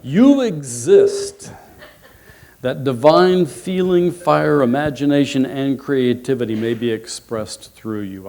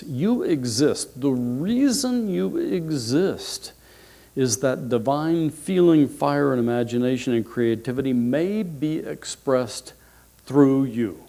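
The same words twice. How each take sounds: First: Emphatic proclamation. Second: Thoughtful emphasis. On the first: Speaker sharing last week's quotation with the audience, proclaiming loudly. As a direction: proclaim it boldly to a congregation. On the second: Speaker repeating the quotation so listeners think about it, reflectively. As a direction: let each phrase sink in. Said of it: "Really think about this". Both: Real, not acted.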